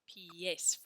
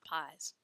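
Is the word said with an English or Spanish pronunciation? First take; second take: Spanish; English. First: It is said the Spanish way, like 'pee-ess'. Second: It is said like the English word 'pies'. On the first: The speaker calls it right. "So we pronounce that word pie, pies, pies for feet" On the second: The speaker calls it wrong. "not pies"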